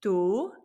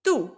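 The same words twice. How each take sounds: First: "Tú" drawn out, without an upward accent; unaccented tú. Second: "tú" short, with an upward accent; quick lifted "tú", as the accent mark asks. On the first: Teacher contrasts two forms for learners, unaccented tú. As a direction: let "Tú" run long, as if written without an accent. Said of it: "little bit of a difference". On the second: Teacher contrasts two forms for learners, accented tú. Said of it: "going up in the inflection". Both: Shown as a demonstration.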